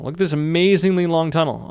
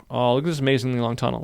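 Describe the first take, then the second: First: A touch of hammed-up wonder; mock awe. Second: Said in the usual way. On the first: Tutorial host hamming up awe at his long tunnel. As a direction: show off the tunnel like it's a marvel. Repeats, then "it's so scary.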